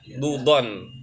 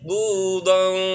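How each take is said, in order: First: The n sound is pronounced clearly. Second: The n sound is hidden and nasalized. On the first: The speaker calls it wrong. "Kalau jelas dudon gitu ya" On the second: The speaker calls it right. "Budang ikhfa samar"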